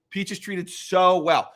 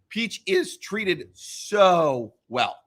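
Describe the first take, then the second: First: Said in the usual way. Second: Drawn out slowly, "so well" lingered over; slow, savoring delivery. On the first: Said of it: "And Peach is treated so well". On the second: Shown as a demonstration. Fan praising Peach to friends, very slow and savoring. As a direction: savor every word of the praise.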